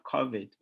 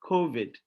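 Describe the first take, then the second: First: "covid" with a short open "kaw" vowel, said KAW-vid; "covid" said the Ghanaian way, KAW-vid; African pronunciation. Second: "covid" with a long "koh" vowel, said KOH-vid; "covid" said the English way, KOH-vid; British pronunciation. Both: Shown as a demonstration. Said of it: "There's no R after the O".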